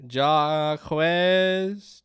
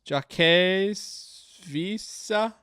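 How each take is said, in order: First: Hesitant stab at saying Jaquez, pronounced zhah-kwez; first try at the name. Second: Jaquez stretched out slowly as shah-KEZ, higher, with the kw dropped; second try at the name. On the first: Player reading the developer's name aloud, unsure first try. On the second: Player retrying the developer's name aloud, slow and careful. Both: Real, not acted. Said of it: "I'm butchering your name".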